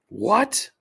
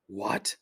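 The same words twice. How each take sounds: First: High, louder incredulous rise; disbelieving what. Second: Said in the usual way. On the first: Real, not acted. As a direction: squeak out the question in shock.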